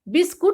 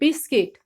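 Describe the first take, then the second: First: The second syllable sounds like 'kut'. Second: The second syllable sounds like 'kit'. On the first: The speaker calls it wrong. "बिस्कुट नहीं बोलेंगे" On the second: The speaker calls it right. "हम बोलेंगे बिस्किट"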